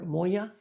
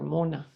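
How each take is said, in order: First: The middle consonant is a y sound. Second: The middle consonant is an n sound.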